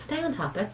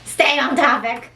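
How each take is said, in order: First: It is said in a plain, neutral way. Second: It is said with a sassy, pointed attitude. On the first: "Maybe it was just" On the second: "Perhaps I read it with attitude"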